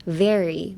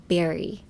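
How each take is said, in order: First: "Very" starting on a buzzing V. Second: "berry" starting on a popped B. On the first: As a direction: bite the lip lightly to begin "Very". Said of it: "最初スタート唇噛んだ感じで". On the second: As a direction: bounce both lips to begin "berry". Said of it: "唇と唇のなんかバウンス". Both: Shown as a demonstration.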